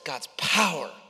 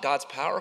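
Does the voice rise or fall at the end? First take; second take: falls; rises. First: The voice falls at the end like an exclamation. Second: The voice rises at the end like a question. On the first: There is confident trust in what God can do. The speaker calls it right. "faith turns all of the question marks into exclamation points" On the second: There is doubt about what God can do. The speaker calls it wrong. "question mark"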